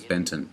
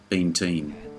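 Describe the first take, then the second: First: The second syllable sounds like 'ton'. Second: The second syllable sounds like 'teen'. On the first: The speaker calls it wrong. "incorrectly being pronounced as Benton" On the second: The speaker calls it right. "his name is actually Benteen"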